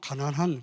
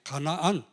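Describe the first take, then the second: First: The middle syllables run together like 'ganan-han'. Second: The middle syllables stay apart as 'ga-na-an'. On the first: It sounds like the word for poor. The speaker calls it wrong. "잘못 발음하면 가난한 그래 됩니다" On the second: It names the land of Canaan. The speaker calls it right. "가난한 동네가 아니라 이게 가나안"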